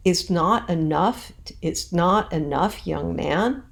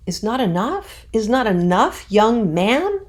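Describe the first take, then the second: First: "It's not enough" slow with NOT stressed; walk through the meter slowly; scanned reading. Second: Put-on rising, louder pleading "Is not enough, young man?"; natural, questioning. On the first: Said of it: "that scans". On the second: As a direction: say it like a real plea. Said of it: "saying it in a more natural way". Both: Shown as a demonstration.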